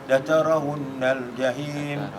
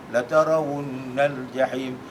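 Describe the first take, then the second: The two takes are said the same way.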